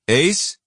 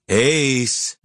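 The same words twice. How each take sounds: First: It is asked as a rising question. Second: It is said with an annoyed edge.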